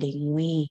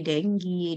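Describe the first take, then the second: First: The second syllable sounds like 'gwee'. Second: The second syllable sounds like 'gee'. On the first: This follows the original African language. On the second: This is a common acceptable variant.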